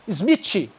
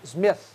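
First: The final sound is not a th sound. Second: The final sound is a soft th sound. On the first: The speaker calls it wrong. "não é Smith" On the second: The speaker calls it right. "É TH"

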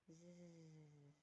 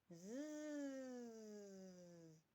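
First: The buzzing is said quietly. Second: The buzzing is said loudly. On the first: The mosquito has been chased away. "А тепер тихіше, наче ми його прогнали" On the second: The mosquito is about to bite. "Тепер голосніше, наче збирається нас покусати"

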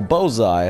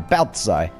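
First: The name has no t sound. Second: The name includes a soft t sound. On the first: The speaker calls it wrong. "horribly mispronouncing Baltzai's name" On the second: The speaker calls it right. "I know how to say her name correctly now. There's a soft T at the end of it"

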